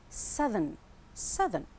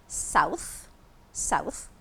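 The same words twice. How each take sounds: First: Southern with a short uh and voiced th; short first vowel in southern, buzzing th; southern, changed vowel. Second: South ending in a voiceless th; south with ow, then unvoiced th. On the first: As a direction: say southern as SUH-thern, th voiced. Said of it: "when it changes to an adjective". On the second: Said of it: "so the th sound". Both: Shown as a demonstration.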